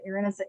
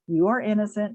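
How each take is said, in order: First: It is said quickly, with no breath between repeats. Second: It is said slowly, with a breath after it. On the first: The speaker calls it wrong. "That's not what I mean" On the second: The speaker calls it right. "take a breath"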